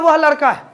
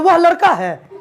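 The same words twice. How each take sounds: First: It is said as a statement, falling. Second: It is said as a question, rising.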